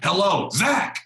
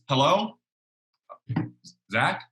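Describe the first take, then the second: First: It is said abruptly with high energy. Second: It is said calmly with low energy.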